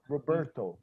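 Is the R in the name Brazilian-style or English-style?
English-style. The R is a curled, English-style r. It is how the name is said abroad. "the R in English is different... I say my name is Roberto"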